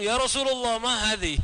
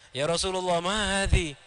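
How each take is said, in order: First: High, startled-sounding mock challenge; acted questioning in a raised pitch; immediate questioning. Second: Respectful, even-pitched question; mannerly acted query in a level voice; polite asking. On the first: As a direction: blurt it out as an instant query. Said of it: "lalu langsung". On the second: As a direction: ask it courteously, without reproach. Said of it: "dengan sopan ya, dengan adabnya".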